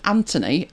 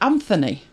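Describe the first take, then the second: First: The middle consonant is a plain t sound. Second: The middle consonant is a th sound. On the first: "silent H" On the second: "So it's not a silent H"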